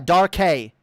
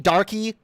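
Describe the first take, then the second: First: The name ends in a hay syllable. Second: The name ends in an ee sound. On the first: This is the proper pronunciation. The speaker calls it right. "It's not hard" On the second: Another person kept saying it this way. The speaker calls it wrong. "Every five fucking seconds out of your mouth?"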